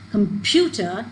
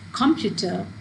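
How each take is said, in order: First: The stress is on the middle syllable. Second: The stress is not on the middle syllable. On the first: The speaker calls it right. "if the stress is on this pu, so we obviously we're going to pronounce it as computer" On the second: The speaker calls it wrong. "not as computer or computer"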